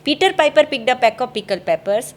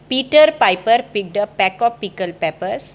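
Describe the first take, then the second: First: The words are said at a faster speed. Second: Each word is said slowly and clearly.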